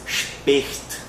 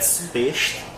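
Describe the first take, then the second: First: The name is said in a German way. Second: The name is said in a non-German way. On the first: The speaker calls it right. "the correct is Specht, something like that" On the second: The speaker calls it wrong. "I always said Specht"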